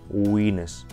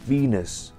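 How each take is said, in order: First: It begins with a rounded W sound. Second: It begins with a V, lip against teeth. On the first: The speaker calls it wrong. "нельзя говорить таким образом" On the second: The speaker calls it right. "прикусывайте нижнюю губу верхними зубами, вот так"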